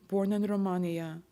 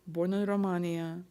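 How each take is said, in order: Both takes have the same delivery.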